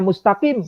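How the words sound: The q sound is pronounced before the last vowel. "tidak dibaca mustaqim"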